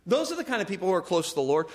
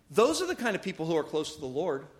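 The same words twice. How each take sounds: First: Fast, brisk restatement; quick repeat. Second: Slow and weighty, letting it sink in; slow emphatic. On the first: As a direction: rattle it off quickly. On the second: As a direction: lean on each word, slowly. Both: Shown as a demonstration. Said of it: "repeats the line faster".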